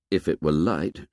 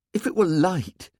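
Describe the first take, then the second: First: Said in the usual way. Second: Put-on high-pitched questioning young character; boy's protest. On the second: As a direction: protest in a much higher voice. Twins' protest, then narrator echoes it.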